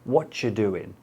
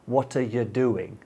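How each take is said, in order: First: The words are heavily shortened, dropping a word. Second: The words are run together and partly reduced. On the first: "Or even" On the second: "You say what sounds like"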